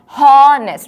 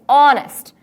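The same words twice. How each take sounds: First: The word begins with an audible H sound. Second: The word begins directly with a vowel sound. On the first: The speaker calls it wrong. "We do not pronounce this word as honest" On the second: The speaker calls it right. "It's honest"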